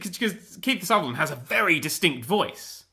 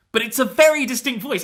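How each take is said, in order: First: Said in the usual way. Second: "very" pushed higher and louder; stress on very. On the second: Shown as a demonstration. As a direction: lean hard on "very" to insist.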